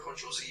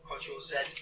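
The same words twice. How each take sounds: First: Z is said the American way, as zee. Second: Z is said the British way, as zed.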